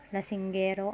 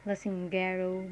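First: "lasinggero" with tapped r and a pure final o; Tagalog pronunciation. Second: "lasinggero" with English r and final "oh" glide; English-style pronunciation. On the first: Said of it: "is it in Tagalog". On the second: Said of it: "pronounce it as this way". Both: Shown as a demonstration.

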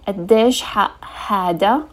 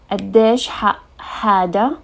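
No difference in how they are said.

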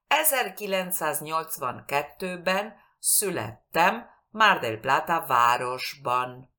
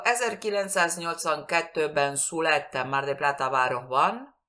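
First: "Ezerkilencszáznyolcvankettőben születtem" articulated, with rounded ő and ü; as it should sound. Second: "Ezerkilencszáznyolcvankettőben születtem" run together, vowels slurred Spanish-style; careless mispronunciation. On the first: Teacher giving an example for learners, carefully pronounced. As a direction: say "születtem Mar del Plata városban" carefully, in separate phrases. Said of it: "Como debe sonar".

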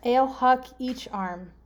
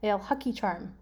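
First: Ale, huck, each, arm as separate words; deliberate, spaced-out gibberish clue; slow readout. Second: Ale huck each arm run together; quicker, connected gibberish clue; faster readout. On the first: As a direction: read it slowly, word by word. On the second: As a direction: blend the words into one phrase. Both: Shown as a demonstration. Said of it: "It's better if I read it fast".

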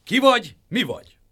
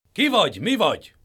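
First: Much higher, loud challenge; clanging guard. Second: High, loud challenging guard; stern guard. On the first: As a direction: stop the intruder. Pot guards halt Dur. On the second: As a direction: halt the stranger. Sun guards halt the traveller. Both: A narrator's reading.

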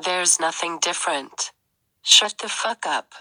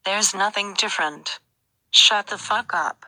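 First: A subtly different robot voice; slightly altered voice; changed voice. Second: Another slightly changed voice. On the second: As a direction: shift the voice a little. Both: Acted. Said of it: "you're changing your voice".

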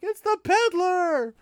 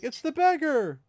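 First: Much higher, louder, slowed cry of surprise; shocked recognition. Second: Higher, louder cry of recognition; startled outburst. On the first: Mat blurting out to the room that he knows the man, shocked. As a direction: yell it the moment you recognize him. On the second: Rand crying out in recognition at the beggar, startled. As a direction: blurt it out as it dawns on you. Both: Retold or imitated.

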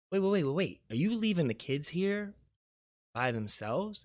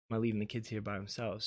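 First: Retold alarm, pitched higher then easing down; alarmed question. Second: Said in the usual way. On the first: Mom stopping aunt who is leaving, alarmed question. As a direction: imitate a startled objection.

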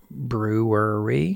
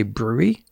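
First: "Brewery" stretched very slowly into separate syllables, rising; laboured pronunciation. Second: "brewery" squashed into two quick syllables, like "brew-ee"; shortcut pronunciation. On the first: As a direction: struggle through "Brewery" syllable by syllable. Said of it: "That one gets me every time". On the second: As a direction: slur "brewery" down to "brew-ee", asking. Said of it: "Can I just say". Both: Shown as a demonstration.

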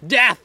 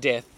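First: A sudden loud yell, higher; shouted. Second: Said in the usual way. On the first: Real, not acted. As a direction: shout the word out. Repeated word, second one shouted.

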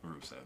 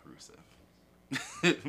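First: Said in the usual way. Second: Slow unvoiced drawn-out name; drawn-out whisper. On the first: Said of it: "Yeah, Rusev". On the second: Shown as a demonstration. Savouring the name for his cohost, slow whispered drawl. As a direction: breathe the name out slowly in a whisper.

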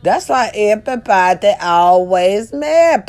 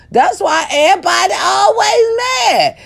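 First: Said in the usual way. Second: High shout. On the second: Shown as a demonstration. To viewers, shrieking why everybody is mad. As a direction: belt out always mad in a piercing squeal.

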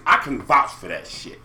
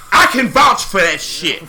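First: Said in the usual way. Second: Louder, slower, weighty repeat; emphatic. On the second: Real, not acted. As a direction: lean on every word and slow down.

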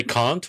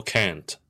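First: "can't" with the A of "father"; long-A "can't". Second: "can't" with the A of "cat"; short-A "can't". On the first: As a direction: say "can't" as "cahnt". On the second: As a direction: say "can't" with a flat A. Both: Shown as a demonstration. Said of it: "do you say can't or can't?".

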